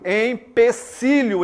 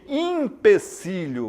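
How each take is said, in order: First: The word begins with an em sound. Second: The word begins with an im sound. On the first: The speaker calls it right. "empecilho em vez de" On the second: The speaker calls it wrong. "em vez de empecilho"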